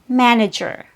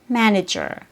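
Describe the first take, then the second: First: The first vowel is said with an open mouth. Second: The same.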